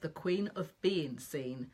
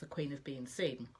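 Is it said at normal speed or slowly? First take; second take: slowly; normal speed. First: It is said slowly and deliberately. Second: It is said at normal speed.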